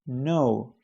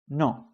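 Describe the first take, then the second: First: It is said with English pronunciation. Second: It is said with Spanish pronunciation. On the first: "in English is no" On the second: "in Spanish is no"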